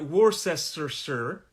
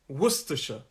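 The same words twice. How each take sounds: First: Every written syllable is sounded out in full. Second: Several syllables are dropped in a shortened form. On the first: The speaker calls it wrong. "it looks like Worcestershire" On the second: The speaker calls it right. "but it's Worcestershire"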